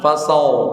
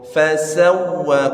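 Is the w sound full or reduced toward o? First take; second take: Reduced; Full. First: The w is weak, sounding like o. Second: The w is full, with rounded lips. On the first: The speaker calls it wrong. "Kalau tidak monyong nanti jadi o" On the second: The speaker calls it right. "Huruf waw harus monyong"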